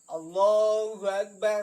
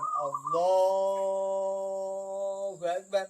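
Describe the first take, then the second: First: It is said quickly, without stretching. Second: It is said drawn out, with long vowels.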